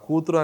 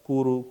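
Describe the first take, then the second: First: All three syllables are clearly pronounced. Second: The middle syllable is swallowed and dropped. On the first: "కూతురు అనే దగ్గర" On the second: "తా పలకకుండా"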